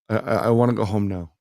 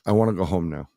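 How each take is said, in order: First: It is said in a childlike, stammering voice. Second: It is said in a normal adult voice.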